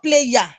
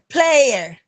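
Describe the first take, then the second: First: It has a y-glide sound in the middle. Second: It has no y-glide sound in the middle. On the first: The speaker calls it wrong. "not player. Don't be looking for you" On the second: The speaker calls it right. "It is air, player"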